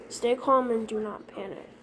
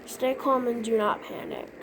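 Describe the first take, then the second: No difference in how they are said.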